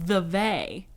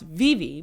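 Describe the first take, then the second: First: It is pronounced the way it is spelled. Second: It is pronounced like Vivi, unlike its spelling. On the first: The speaker calls it wrong. "I was saying Vevay because it's spelled V E V A Y" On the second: The speaker calls it right. "but it's pronounced Vivi because it's Swiss"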